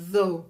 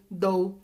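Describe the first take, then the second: First: Though with voiced th, tongue between teeth; correct though. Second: Dough said with a hard d; d sound in dough, not th; wrong though, like dough. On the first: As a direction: though said as thow. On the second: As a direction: dough with plain d. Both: Shown as a demonstration. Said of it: "em vez de".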